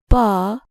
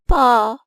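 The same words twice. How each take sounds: First: The syllable is said at a normal pitch. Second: The syllable is said at a higher pitch.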